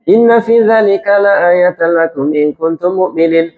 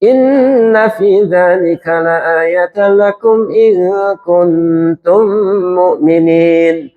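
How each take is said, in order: First: The final vowel of mu'minin is cut short abruptly. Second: The final vowel of mu'minin is held long. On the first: The speaker calls it wrong. "Jadi ekor itu nggak mau panjang. ... Mukminin langsung nggak boleh" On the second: The speaker calls it right. "Minimal dua ekornya mat arid li syukur mukminin"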